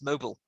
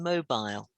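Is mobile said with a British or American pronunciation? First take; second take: American; British. First: It is said with an American pronunciation. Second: It is said with a British pronunciation. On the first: "The U S says mobile" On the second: "I would say scheduled and mobile"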